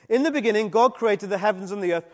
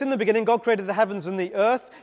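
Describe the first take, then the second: First: The phrase ends with a full stop after 'earth'. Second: The phrase runs on without a break after 'earth'. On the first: The first creation is complete before a later stage begins. "full stop" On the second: The creation and the formless earth are one continuous event. "All in a straightforward chronological progression with no gaps"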